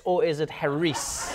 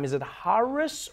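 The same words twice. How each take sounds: First: "Harris" with the weight on the end; ha-REECE, drawn out as a question; stress on second syllable. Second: "Harris" with the weight up front; HARR-is, drawn out as a question; stress on first syllable. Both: Shown as a demonstration. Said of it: "how do people pronounce your name".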